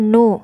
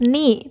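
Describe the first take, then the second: First: The n is followed by a u vowel. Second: The n is followed by an i vowel. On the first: The speaker calls it wrong. "tidak boleh juga nu" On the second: The speaker calls it right. "harus ni"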